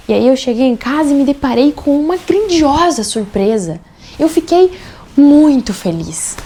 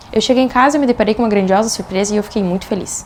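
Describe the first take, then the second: First: Higher, grandiosa punched, muito stretched loud; emphatic intonation. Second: Said in the usual way. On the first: Shown as a demonstration. Coach telling of a birthday surprise, emphatic intonation. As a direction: make grandiosa and muito stand out, with a gap before muito. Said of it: "percebem a diferença na forma como a minha entonação de voz". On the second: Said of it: "percebem a diferença".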